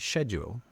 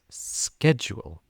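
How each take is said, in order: First: It is said with a British pronunciation. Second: It is said with an American pronunciation. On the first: "in the U K, we would say schedule" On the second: "in America, they would pronounce it as schedule"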